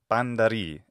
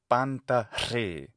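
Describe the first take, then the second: First: It is pronounced the modern Greek way. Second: It is pronounced the ancient Greek way. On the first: "in modern Greek pronunciation" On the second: "One of his famous phrases is panta re"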